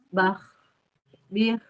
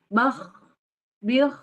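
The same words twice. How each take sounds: First: The ending is soft, with light throat pressure. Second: The ending is forced and rasping, like snoring. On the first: The speaker calls it right. "Kalau yang mengalir itu dia lemah penekanan pada makrojnya. Jadi gimana?" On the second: The speaker calls it wrong. "tidak yang sampai gini ... sampai kayak ngorok banget gitu ya"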